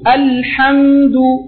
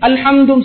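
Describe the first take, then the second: First: The l and m sounds are held longer. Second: The word is said rushed, all at once. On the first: The speaker calls it right. "லாம்லையும் மீம்லையும் கொஞ்சம் டைமிங் கொடுப்போம்" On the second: The speaker calls it wrong. "ஒரேடிக்கு அல்ஹம்துன்னு சொல்லாம"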